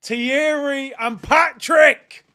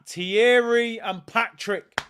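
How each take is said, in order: First: Excited shout. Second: Excited. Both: Real, not acted. Fan hails returning legends.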